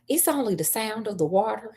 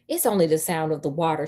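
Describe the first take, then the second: First: It is said in a Southern American accent. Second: It is said without a Southern accent. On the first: The speaker calls it right. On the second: The speaker calls it wrong.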